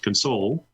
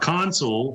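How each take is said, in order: First: The stress is on the second syllable. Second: The stress is on the first syllable. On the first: The word is a verb. "if you take the second syllable and accentuate that, then they're verbs" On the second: The word is a noun. "If you pronounce the first syllable the way I did, they're considered a noun"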